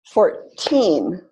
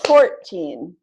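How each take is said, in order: First: Put-on "fourteen" with TEEN long and strong; stress on second syllable. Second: Put-on "Fourteen" with FOUR punched, teen weaker; stress on first syllable. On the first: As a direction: model "fourteen" as four-TEEN. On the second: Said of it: "I can tell that doesn't sound right". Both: Shown as a demonstration.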